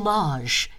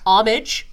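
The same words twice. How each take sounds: First: It is said in a French way. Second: It is said in a US way.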